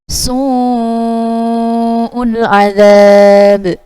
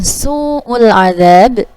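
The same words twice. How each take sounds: First: The vowel in su'ul is stretched very long. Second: The vowel in su'ul is not stretched enough. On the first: The speaker calls it right. "panjangnya lima harokat atau dua setengah alif" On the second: The speaker calls it wrong. "maka itu termasuk uh, lahan khafi"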